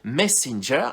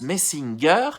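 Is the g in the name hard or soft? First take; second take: soft; hard. First: The g is said with a soft sound. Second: The g is said with a hard sound. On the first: The speaker calls it right. "il insiste en disant que le G se prononce je" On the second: The speaker calls it wrong. "Maggie, dans un premier temps, le prononce Messinger"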